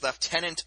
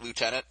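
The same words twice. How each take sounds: First: It is pronounced in a non-American way. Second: It is pronounced in an American way. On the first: The speaker calls it wrong. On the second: The speaker calls it right.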